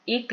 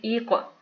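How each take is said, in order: First: इक ending on a plain closed k; no qalqala. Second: ई कॉफ said as "iq" with an echoed, back-of-tongue q; qalqala bounce. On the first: Teacher showing what not to read, इक with no bounce. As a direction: stop इक short without any echo. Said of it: "नहीं पढ़ेंगे". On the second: Teacher showing the correct reading, ई कॉफ with bounced q. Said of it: "कलकला आ गया". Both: Shown as a demonstration.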